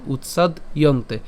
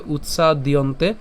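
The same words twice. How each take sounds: First: "উৎসাদিয়ন্তে" broken as utsad, iyonte; split pronunciation. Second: "উৎসাদিয়ন্তে" as one word, utsa-diyonte; joined pronunciation. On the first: Teacher breaks the word up for learners, split pronunciation. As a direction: stop after utsad in "উৎসাদিয়ন্তে", then say iyonte. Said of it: "আর ভেঙে উচ্চারণ করলে হবে". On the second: Teacher contrasts it with the broken form, joined pronunciation. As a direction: link d to the next vowel in "উৎসাদিয়ন্তে". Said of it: "একসাথে উচ্চারণ করলে হবে". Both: Shown as a demonstration.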